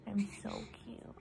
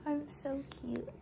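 First: Whisper. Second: High, sweet cooing voice; high baby voice. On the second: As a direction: coo it like a baby. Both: Pretend. Mom voicing her newborn.

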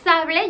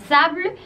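First: "sable" in two full syllables, SA-ble; Spanish "sable" with a sounded final e; Spanish pronunciation. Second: "sable" as French sabl', final e silent; one long syllable "sable", French style; French pronunciation. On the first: Teacher gives the sword word, Spanish pronunciation. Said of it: "En español". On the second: Teacher shows the word for sand, French pronunciation. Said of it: "pues en francés es". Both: Shown as a demonstration.

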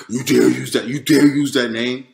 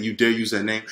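First: Imitated roar, loud and altered in timbre; roaring, intimidating yell. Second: Said in the usual way. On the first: Devil's voice yelling over the name, imitated intimidating roar. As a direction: roar it as a looming threat. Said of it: "was a roaring, yelling, a very intimidating". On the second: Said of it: "as proper as saying that".

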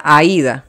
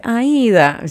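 First: Paisa-style "Aida"; paisa accent. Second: "Aida" with a soft paisa d, a little higher; paisa accent. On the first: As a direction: say "Aida" as a man from Medellín. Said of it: "Pero a un paisa". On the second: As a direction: say "Aida" like a woman from Medellín. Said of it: "cuando una paisa me dice". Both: Retold or imitated.

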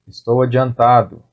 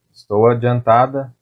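First: "adiantado" with its final o; masculine ending. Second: "adiantada" with its final a; feminine ending. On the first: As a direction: end "adiantado" on the o sound. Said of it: "for man". ("adiantado" terminando em o) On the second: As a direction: end "adiantada" on the a sound. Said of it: "for woman". ("adiantada" terminando em a) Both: Shown as a demonstration.

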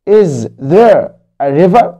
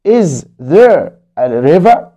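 First: Is there a river read very slowly again, rising; slow story reading. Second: Is there a river read very slowly, rising; slow story reading. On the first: Teacher repeating Hani's question slowly to kids. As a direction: ask it slowly once more for young learners. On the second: Teacher reading Hani's question slowly to kids. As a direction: ask it slowly for young learners. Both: Acted.

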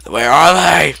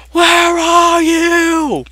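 First: Said in the usual way. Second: Very high, slow drawn-out where are you; a high lilting call into the woods; sing-song high call. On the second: Pretend. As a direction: croon it high and slow like calling a pet. Calling out for chickens.

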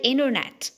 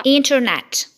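First: "internet" with silent first T; American INTERNET. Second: "internet" with both Ts sounded; British INTERNET. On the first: Teacher showing American "internet", silent-T pronunciation. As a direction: say "internet" like "innernet". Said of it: "هيبقى silent". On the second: Teacher showing British "internet", full-T pronunciation. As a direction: hit the first T in "internet". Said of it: "في البريتش أكسنت هتتنطق". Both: Shown as a demonstration.

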